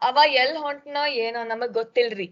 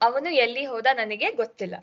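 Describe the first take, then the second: First: Lightly done North Karnataka Kannada, quick; a mild hint of a North Karnataka speaker; North Karnataka accent. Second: His own South Karnataka Kannada, quick and even; South Karnataka accent, said naturally and fast. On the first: Teacher contrasting it with the South, a mild North Karnataka accent. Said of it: "If a North Karnataka person would say this". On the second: Teacher demonstrating the South Karnataka Kannada accent to students. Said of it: "this is the accent used in South Karnataka". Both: Shown as a demonstration.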